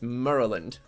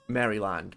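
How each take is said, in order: First: The word is said in a shortened, reduced form. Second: Every syllable of the word is fully pronounced. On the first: The speaker calls it right. "but apparently it's" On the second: The speaker calls it wrong. "I'm here pronouncing the whole thing"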